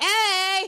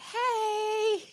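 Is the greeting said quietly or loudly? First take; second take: loudly; quietly. First: It is said loudly and confidently. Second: It is said quietly and timidly.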